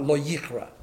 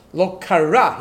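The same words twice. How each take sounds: First: "lo yichra" with the yud sound yi in front, as the future tense; Hebrew future tense. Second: "Lo kara" with no yud in front, as the past tense; Hebrew past tense. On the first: Rabbi correcting to the future tense "lo yichra", with the yud. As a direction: say "lo yichra", leading yi marking the future. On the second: Rabbi showing his listeners the past tense "Lo kara", no yud. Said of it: "That would have been in Hebrew". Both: Shown as a demonstration.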